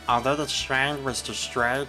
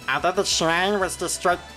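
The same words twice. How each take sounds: First: A put-on character voice delivered without emotion. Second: A put-on character voice delivered with emotion. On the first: It sounds like the intended character. The speaker calls it right. "I kind of have to not put any emotion into it" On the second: It sounds like the wrong character. The speaker calls it wrong. "Damn it, that's Guilmon"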